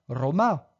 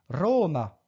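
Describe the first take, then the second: First: The stress is on the last syllable. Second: The stress is on the first syllable. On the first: The speaker calls it wrong. "Je ne dis pas Roma" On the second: The speaker calls it right. "mais bien Roma"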